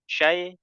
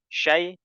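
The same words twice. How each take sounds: First: The vowel glide is cut short. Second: The same.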